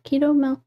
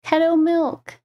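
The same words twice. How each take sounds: First: "Keto" said KEE-toh, long E. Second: "Keto" said KEH-toh, short E. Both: Real, not acted. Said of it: "I never know if I'm saying it right".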